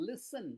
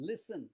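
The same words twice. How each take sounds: Both takes have the same delivery.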